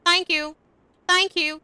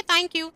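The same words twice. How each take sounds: First: The correct way, tongue out a little; right th. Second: The wrong way, tongue inside. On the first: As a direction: thank you with the tongue just past the upper teeth. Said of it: "टंग है वो अपर teeth के थोड़ा सा बाहर". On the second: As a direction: Thank you with a hard dental t. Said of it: "हम इसको thank you नहीं बोलेंगे". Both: Shown as a demonstration.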